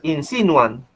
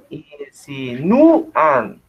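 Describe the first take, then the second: First: The stress falls on the syllable si. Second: The stress falls on the syllable nu. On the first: The speaker calls it wrong. "Si tú dices que es esdrújula, estaría acá el acento" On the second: The speaker calls it right. "Está en nu. Ustedes dicen insinúan"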